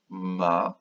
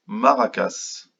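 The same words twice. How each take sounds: First: "Maracas" broken into three syllables with long pauses. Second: Said in the usual way. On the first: Shown as a demonstration. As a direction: leave a wide gap after each syllable of "Maracas". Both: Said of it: "Combien de syllabes dans maracas?".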